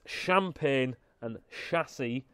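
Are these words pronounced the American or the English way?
English. The words are said with an English pronunciation. The speaker calls it right. "it's champagne and chassis"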